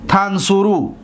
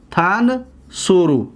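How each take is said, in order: First: Said in the usual way. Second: TAN, then SURU, slowly split with a pause in تنصرو; syllable by syllable. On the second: Shown as a demonstration. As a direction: break تنصرو into slow, separate pieces for learners. Teacher breaks word into syllables. (تنصرو را آهسته و هجا به هجا)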